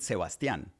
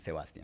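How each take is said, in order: First: The name is pronounced the Spanish way. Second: The name is pronounced the English way. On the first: This is how friends and family say it. "That's the accent in Spanish" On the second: This is the version adopted in the US. "might as well just start pronouncing Sebastian"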